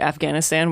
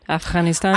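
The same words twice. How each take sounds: First: The middle consonant is a hard G sound. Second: The middle consonant is a throaty, breathy sound. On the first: The speaker calls it wrong. "a very Americanized way to say it, Afghanistan with that hard G" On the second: The speaker calls it right. "It's closer to something like that, Afghanistan. it's like that h thing"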